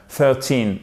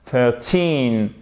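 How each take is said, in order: First: "Thirteen" with THIR strong and a shorter end; stress on THIR. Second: Put-on "Thirteen" with a long falling TEEN; stress on TEEN. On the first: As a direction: hit the first syllable of "Thirteen" by mistake. (accent fautif sur le début de « Thirteen ») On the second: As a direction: lean on the second syllable of "Thirteen". (accent long sur la fin de « Thirteen ») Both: Shown as a demonstration. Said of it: "se tromper et à accentuer la première syllabe".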